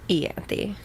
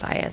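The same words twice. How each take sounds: First: "Ianthe" opened with a long EE; pronounced ee-AN-thee. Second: "Ianthe" opened with an EYE sound; pronounced eye-AN-thee. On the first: Co-host sticks with her preferred name, "Ianthe" as ee-AN-thee. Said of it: "I'm gonna stick with". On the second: Co-host gives in to the other version, "Ianthe" as eye-AN-thee. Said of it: "No, we'll stick with". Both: Shown as a demonstration.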